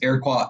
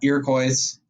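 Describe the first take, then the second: First: It is pronounced with a French-style ending. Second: It is pronounced with an English-style ending. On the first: The speaker calls it right. "it's French" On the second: The speaker calls it wrong. "it's not"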